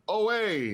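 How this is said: It is said in a New York accent.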